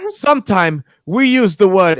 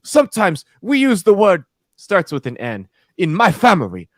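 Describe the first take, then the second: First: Higher imitation of a grandmother's broken English. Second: Higher imitation of a grandmother's broken English, repeated. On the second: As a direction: repeat her broken English line, pitched up. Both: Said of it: "in her broken English".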